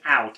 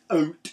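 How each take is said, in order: First: The vowel is the usual 'ow' sound. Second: The vowel sounds like 'oh', as in 'oat'. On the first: "there was out" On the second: "that one was like, oat"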